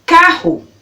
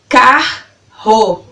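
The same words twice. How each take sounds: First: Said in the usual way. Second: CARRO slowly split into car - ro; syllable by syllable. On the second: Shown as a demonstration. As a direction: pause between the two beats of CARRO. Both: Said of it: "falando elas pausadamente pra você".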